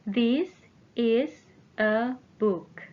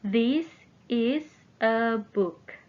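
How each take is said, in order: Both takes have the same delivery.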